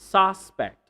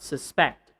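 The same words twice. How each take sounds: First: The stress is on the first syllable. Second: The stress is on the second syllable. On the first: The speaker calls it right. "If you're talking about the noun" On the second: The speaker calls it wrong.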